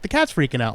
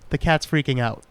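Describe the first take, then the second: First: It is said urgently, with alarm and annoyance. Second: It is said flatly, like a plain announcement. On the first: Something is wrong and someone caused it. The speaker calls it right. "should have been like, ... what the hell?" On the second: It is just a piece of news. The speaker calls it wrong. "says it like it's this news"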